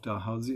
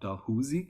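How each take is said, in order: First: The name ends rhyming with 'lousy'. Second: The name ends not rhyming with 'lousy'. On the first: This is how the university and its namesake say it. "It rhymes the lousy university" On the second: This is how the rest of the clan says it. "and not Dalhousie"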